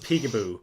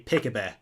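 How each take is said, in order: First: The vowels are read as plain English sounds. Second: The vowels are read as Scandinavian letter sounds. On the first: This is the intended pronunciation of the name. "I know it's supposed to be pronounced Peekaboo" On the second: The letters are read as they look. "when I see Scandinavian letters, I pronounce the Scandinavian letters"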